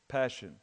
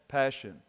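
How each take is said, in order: No difference in how they are said.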